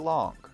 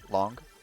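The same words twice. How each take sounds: First: The word is said slow and drawn out. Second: The word is said short and sharp. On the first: This is how people from the north say it. "people from the north, we're gonna say" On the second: This is how people from the capital say it. "People from from Belgrade, they're gonna say"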